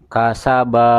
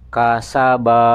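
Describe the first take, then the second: Both takes have the same delivery.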